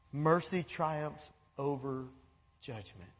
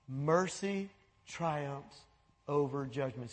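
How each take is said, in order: First: Mercy triumphs over judgment, slow with MERCY hit hard; slow emphatic line. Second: Mercy triumphs over judgment, even slower, MERCY leaned on; slower repeat. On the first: Preacher slowly stressing MERCY to the church. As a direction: drag it out, dropping low on judgment. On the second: Preacher repeating the verse slower and softer to the church. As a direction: savour each word, soft and low. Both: Shown as a demonstration.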